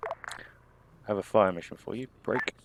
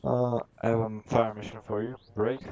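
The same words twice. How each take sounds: First: Radio call. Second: Clipped military radio voice; radio call. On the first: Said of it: "demo of radio call". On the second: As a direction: read it like a radio net call. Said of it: "repeat of radio call". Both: Shown as a demonstration.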